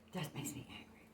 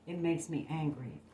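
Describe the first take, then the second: First: Breathy whisper, much softer; whispering the anger under the breath. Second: Said in the usual way. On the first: Shown as a demonstration. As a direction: drop to a hushed whisper. Repeats it, second time whispered.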